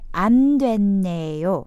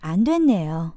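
First: The phrase is said slowly. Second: The phrase is said more quickly. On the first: "first slowly" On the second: "And a little quicker"

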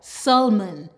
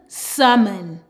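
First: The L sound is clearly pronounced. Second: The L sound is silent.

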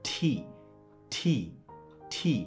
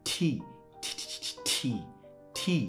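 No difference in how they are said.

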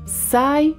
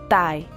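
First: It begins with an s sound. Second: It begins with a t sound. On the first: "Não é sai" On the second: "ou tai"

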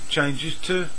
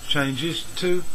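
No difference in how they are said.

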